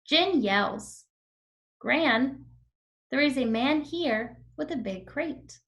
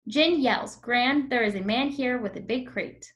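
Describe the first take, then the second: First: Short pauses break up the sentence. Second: The sentence runs on without pauses. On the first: The speaker calls it right. "Let me do it one more time with the comma" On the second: The speaker calls it wrong. "And now without the comma"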